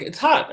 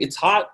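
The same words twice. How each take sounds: First: High mock emphasis. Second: Said in the usual way. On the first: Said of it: "So I went, you know, like". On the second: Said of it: "And so I go".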